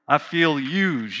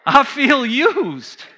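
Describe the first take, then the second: First: Slow, low grumbled I feel used; mild mock complaint. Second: Higher, louder and slow, laughing through I feel used. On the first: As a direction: sulk the words I feel used a little. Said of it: "mumbling and complaining". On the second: Real, not acted.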